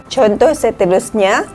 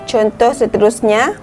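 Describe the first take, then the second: No difference in how they are said.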